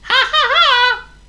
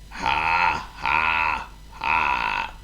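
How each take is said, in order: First: It is said as a cheerful laugh. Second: It is said in a miserable, flat tone.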